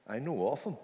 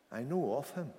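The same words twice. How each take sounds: The two takes are said the same way.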